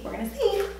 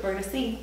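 First: Jumps much higher, playful squeak; sing-song tease. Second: Said in the usual way. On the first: Real, not acted. Before the squat test, teasing viewers in a high playful squeak. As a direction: lift it way up like a teasing joke.

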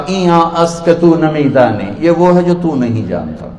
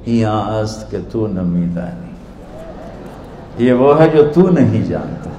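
First: Mildly haughty put-down; arrogant. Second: Innocent. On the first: Scholar dismissing an ignorant villager, arrogant. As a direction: answer as if the asker is beneath you. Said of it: "انہوں نے بڑے تکبر سے کہا". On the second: Dervish returning the scholar's own words, softly innocent. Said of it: "بڑی معصومیت سے بولے". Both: Retold or imitated.

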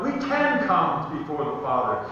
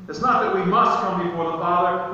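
First: "can" lifted out, then falling away; stress on can. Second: "not" and "must" punched, the rest lighter; stress on must. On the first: Preacher tells congregation prayer is open to them, stressing "can". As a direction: lean on "can" as the correction. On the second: Preacher tells congregation prayer is no duty, stressing "must". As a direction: lean on "must" to reject it. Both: Shown as a demonstration.

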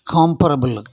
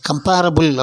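First: காம்பரபிள் as KOM-pruh-bul, stressed first syllable; correct pronunciation. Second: கம்பேரபிள் as kum-PAIR-uh-bul; wrong pronunciation. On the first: Teacher models the adjective for learners, correctly pronounced காம்பரபிள். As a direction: open long KAAM, then light endings in காம்பரபிள். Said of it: "அப்படின்னு சொல்லணும்". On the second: Teacher shows learners the mistake, mispronounced கம்பேரபிள். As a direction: stress a long PAIR inside கம்பேரபிள். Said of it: "அப்படின்னு சொல்லக்கூடாது". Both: Shown as a demonstration.

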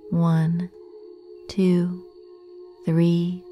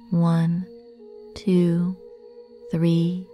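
Both takes have the same delivery.

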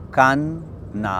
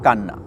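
First: "কান", a clear pause, then "না"; split into syllables. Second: Said in the usual way. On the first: Shown as a demonstration. Teacher splitting a word for learners, "কান" and "না" pronounced apart. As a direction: break it as "কান" ... "না", two separate pieces. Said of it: "আমরা দুটো ধ্বনিখণ্ড পাই". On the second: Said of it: "একটা শব্দ দেখুন".

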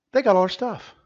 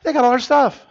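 First: Rising alarm, a bit higher; starting to get worked up; alarmed complaint. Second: Louder, higher, the panic boiling over; panicked shout. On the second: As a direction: yell it like everything is lost. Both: Acted. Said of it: "repeated louder right after".

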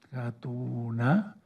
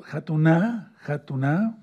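First: "Jatuná" muy lento, con sílabas alargadas; dictado silabeado. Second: "Jatuná" de corrido, con acento final; palabra enseñada. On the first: Repite la palabra para apuntarla. ("Jatuná" despacio, como para que lo copien) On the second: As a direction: presenta "Jatuná" marcando la última sílaba. Enseña una palabra hebrea. ("Jatuná" dicho claro y seguido) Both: Shown as a demonstration.

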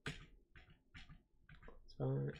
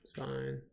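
First: A soft whispered echo. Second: Said in the usual way. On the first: Shown as a demonstration. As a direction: whisper it to yourself. Repeats the line whispered.

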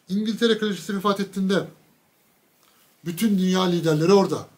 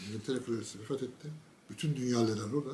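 First: Said in the usual way. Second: Much softer, quicker repeat; hushed retelling. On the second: Real, not acted. Repeating the news to the audience, hushed. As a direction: drop the voice right down and rush it. Same line told twice.

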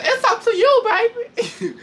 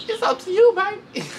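First: High, louder taunt breaking into a laugh; imitating Jayla. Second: Put-on high, sweet taunting "baby"; imitating Jayla. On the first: Retelling Jayla's fight dare louder, laughing through it. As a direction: coo the dare and crack up. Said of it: "She said". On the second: Jayla daring Rolly to fight, in a high mocking coo. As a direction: coo it like a dare. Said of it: "She's like".

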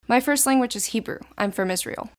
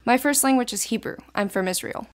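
No difference in how they are said.

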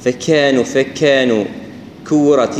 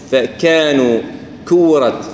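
First: "فكانوا" with a big puff after k; over-aspirated kaf. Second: "فكانوا" with k straight into the vowel; no air puff on "كورت"; kaf without hams. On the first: Teacher showing too much hams, airy k. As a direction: blow air out on the k of "كورت". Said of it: "الكاف المبالغة في همسها". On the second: Teacher correcting the airy kaf, clean k. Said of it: "ما نمسها إذا كانت متحركة". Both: Shown as a demonstration.

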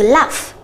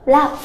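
First: Slow model of laugh; careful laugh demo; word model. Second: Quick model repeat; word model. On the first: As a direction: laugh said slowly with an f ending. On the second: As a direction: Laugh repeated alone. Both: Shown as a demonstration. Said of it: "động từ laugh".

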